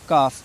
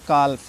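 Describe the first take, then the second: First: The L is silent in the word. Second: The L is clearly sounded in the word. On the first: The speaker calls it right. "C A एल F काफ लिखा है" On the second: The speaker calls it wrong. "बहुत से बच्चे इसको काल्फ पढ़ते हैं"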